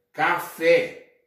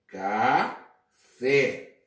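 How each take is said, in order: First: Said in the usual way. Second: "café" slowly split as ca, pause, fé; syllable by syllable. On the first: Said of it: "Você tem café". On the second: Shown as a demonstration. Teacher showing the syllables of café, split apart. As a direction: stretch and separate both syllables of "café". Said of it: "dividimos em sílabas".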